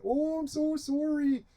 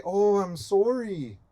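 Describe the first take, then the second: First: Very high, soft, drawn-out Canadian apology; hammed-up Canadian accent, pitched way up and softer; exaggerated Canadian accent. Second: Higher, drawn-out mock Canadian apology; Canadian accent. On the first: Canada apologising to Native people, hammed-up Canadian accent. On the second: Canada saying sorry to Native people, mock Canadian accent. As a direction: put on a slow Canadian accent. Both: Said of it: "That's my Canadian accent".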